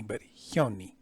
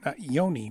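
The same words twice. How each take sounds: First: Hyoni with a clear breathy h before the y. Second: Yoni with a plain y and no breath before it; wrong plain y. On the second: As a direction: say yoni starting straight on y. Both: Shown as a demonstration.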